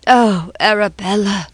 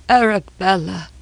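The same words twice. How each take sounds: First: Put-on grieving old man cries out "Oh, Arabella"; wailing. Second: Grief trailing off on "Arabella"; fading wail. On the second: Acted. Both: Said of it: "broke forth into a low wail".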